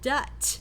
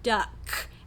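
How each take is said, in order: First: The word ends with a T sound. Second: The word ends with a K sound. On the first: The speaker calls it wrong. "he's using a T sound there instead of the k" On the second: The speaker calls it right. "the word duck"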